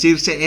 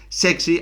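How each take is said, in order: First: The surname sounds like 'Circe'. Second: The surname sounds like 'Sexy'. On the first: The speaker calls it wrong. "no es Circe" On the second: The speaker calls it right. "es Sexy, así lo decía él"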